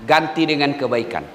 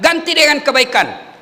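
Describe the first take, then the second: First: Said in the usual way. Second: "dengan" stressed in a higher, firmer "ganti dengan kebaikan"; emphatic repeat. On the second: Shown as a demonstration. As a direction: drive the point home by repeating it with weight on "dengan". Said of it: "Kalau betul-betul Bapak menyesal".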